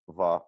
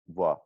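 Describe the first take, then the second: First: The top teeth touch the lip, giving a v. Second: The lips touch slightly, giving a buzzy w. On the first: "that's top teeth, bottom lip" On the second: "it's like my lips are touching a slight bit"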